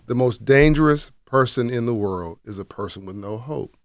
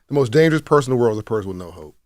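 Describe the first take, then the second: First: It is said slowly and deliberately. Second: It is said at normal speed.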